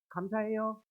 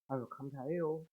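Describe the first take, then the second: First: The thanks sounds cocky and arrogant. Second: The thanks sounds reluctant and grudging.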